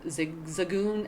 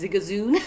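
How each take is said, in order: First: The name is said in its usual form. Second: The name is said in an altered form. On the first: The speaker calls it right. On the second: The speaker calls it wrong.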